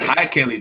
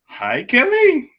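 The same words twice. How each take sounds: First: It is a casual, ordinary greeting. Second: It is a shocked, disbelieving greeting.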